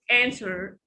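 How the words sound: The vowel is the American one, as in cat.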